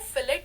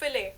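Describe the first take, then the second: First: The word ends with a clear t sound. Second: The word ends in a vowel, no t. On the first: The speaker calls it wrong. "इसको फिलेट नहीं बोलते" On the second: The speaker calls it right. "This word is pronounced as फिले"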